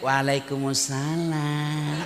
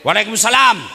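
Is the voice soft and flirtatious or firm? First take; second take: flirtatious; firm. First: It is said in a soft, lilting, flirtatious voice. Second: It is said in a firm, businesslike voice.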